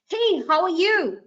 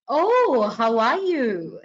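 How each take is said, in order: First: It sounds friendly and fun. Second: It sounds a little critical.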